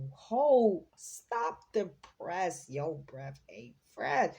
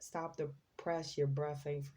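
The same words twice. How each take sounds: First: Loud "hold", then drawn-out "stop the press"; lightly put-on rhyming exclamation, punched at the start; someone's catchphrase talk. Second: Said in the usual way. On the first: Reader blurts out a channelled person's rhyme, lightly put-on exclamation. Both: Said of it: "Somebody talks like that?".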